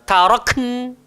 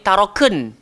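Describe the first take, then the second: First: No vowel is sounded right after the k. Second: A vowel is sounded right after the k. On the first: The speaker calls it right. "Kita nak taroken" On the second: The speaker calls it wrong. "Jangan bariskan kaf. Nanti jadi taroken"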